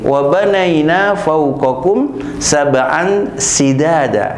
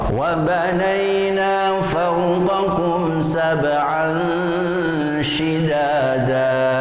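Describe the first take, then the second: First: The final word begins with a plain 's' sound. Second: The final word begins with an 'sh' sound. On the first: The speaker calls it wrong. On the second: The speaker calls it right. "kita coba yang shin"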